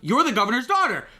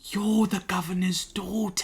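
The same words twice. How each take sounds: First: It is said urgently, as a warning. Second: It is said condescendingly, as if stating the obvious.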